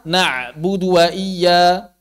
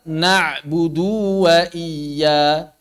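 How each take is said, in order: First: The phrase is recited too quickly. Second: The phrase is recited too slowly. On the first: "Jangan kecepatan" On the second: "Atau jangan terlalu lambat"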